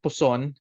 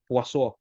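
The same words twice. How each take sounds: First: The name is said with an English pronunciation. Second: The name is said with a French pronunciation. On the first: "let's call it Poisson" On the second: "pronunciation is Poisson because it's French"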